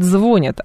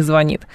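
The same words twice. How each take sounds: First: «звонят» stressed on the first syllable, ЗВО. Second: «звонит» stressed on the final syllable, НИТ; stress on last syllable. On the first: Radio host quoting the disputed new usage, «звонят» stressed on ЗВО. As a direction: put the weight on ЗВО in «звонят», falling after. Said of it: "будет на первый слог". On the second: Radio host citing the traditional form, «звонит» stressed on НИТ. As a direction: put the weight on НИТ in «звонит». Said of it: "а не". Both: Shown as a demonstration.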